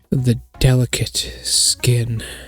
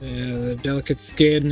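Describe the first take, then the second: First: It is read in a special put-on voice. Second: It is read in an ordinary voice.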